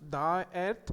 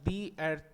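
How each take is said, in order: First: 'The' is said with a short 'thuh' vowel. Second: 'The' is said with a long 'thee' vowel. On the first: The speaker calls it wrong. "there we should not pronounce the earth" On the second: The speaker calls it right. "there we have to pronounce the earth"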